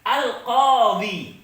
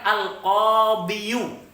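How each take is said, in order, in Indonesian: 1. Kata ini berakhir dengan bunyi 'i' panjang biasa. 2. Kata ini berakhir dengan tambahan suku kata 'yu'. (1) "saya tulis tanpa yang lainnya" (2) "Kalau kita paksakan al-qadhiyu, sulit pemirsa, berat"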